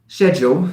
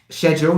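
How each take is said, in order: First: The word is said with a British pronunciation. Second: The word is said with a British pronunciation.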